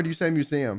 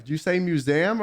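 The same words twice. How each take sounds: First: "museum" said as myoo-ZEE-um; standard pronunciation. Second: "museum" said as myoo-ZAM; own pronunciation. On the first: Streamer offering friend the second option, standard pronunciation of "museum". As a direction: give "museum" a clear ee before the um. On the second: Streamer polling friend on the word, own pronunciation of "museum". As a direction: make "museum" end in ZAM, dropping the ee. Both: Shown as a demonstration. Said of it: "How do you say museum?".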